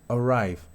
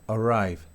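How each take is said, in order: Both takes have the same delivery.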